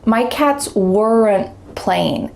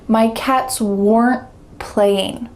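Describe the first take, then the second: First: Weren't ends with an added short uh vowel. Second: Weren't ends in a held T with no vowel. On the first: The speaker calls it wrong. "we added a schwa sound ... that is not natural" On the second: The speaker calls it right. "just a stop T at the end"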